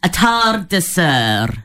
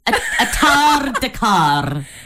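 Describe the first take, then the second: First: The last syllable sounds like 'sir'. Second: The last syllable sounds like 'car'. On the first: The speaker calls it right. "we can say sir as well" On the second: The speaker calls it wrong. "I want to understand why C-E-R sounds car"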